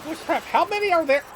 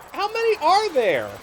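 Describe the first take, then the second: First: High, fast amazed yell; amazed shout. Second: Higher, louder amazed repeat; louder disbelief. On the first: Gamer spots a crowd of enemies, amazed high yell. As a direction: shout it out in disbelief, quickly. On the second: Gamer repeats the question at the swarm, louder amazed yell. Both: Real, not acted.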